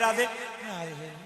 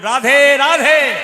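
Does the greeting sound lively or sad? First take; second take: sad; lively. First: It is said weakly and sadly. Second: It is said loudly and cheerfully. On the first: The speaker seems to have no energy at all. The speaker calls it wrong. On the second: The speaker is glad and full of spirit. The speaker calls it right.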